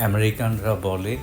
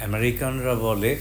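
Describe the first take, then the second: The two takes are said the same way.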